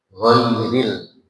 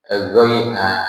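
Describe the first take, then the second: First: The word starts directly on the consonant. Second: An extra vowel sound is added before the word. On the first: The speaker calls it right. "Langsung ghair" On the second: The speaker calls it wrong. "nggak boleh itu"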